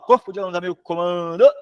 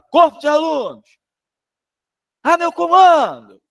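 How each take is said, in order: First: The ending is said weakly, without much energy. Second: The ending is said with strong, forceful energy. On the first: The speaker calls it wrong. "não fala assim, não" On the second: The speaker calls it right. "Bota energia melhor nesse final"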